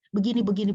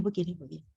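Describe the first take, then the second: First: Said in the usual way. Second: Fading repeat. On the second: Shown as a demonstration. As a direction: lower and much softer. (makin pelan dan lirih)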